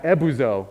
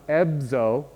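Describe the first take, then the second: First: "ebuzo" with a full oo after the B; a clearly voiced oo in the middle of "ebuzo"; full oo vowel. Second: "ebzo" with B running straight into Z; "ebzo" with nothing between the B and Z; no vowel between consonants. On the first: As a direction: say "ebuzo" in three clear syllables, eb-oo-zo. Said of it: "where they put a full oo". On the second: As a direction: say "ebzo" as two syllables, eb-zo. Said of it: "with, like, nothing here". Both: Shown as a demonstration.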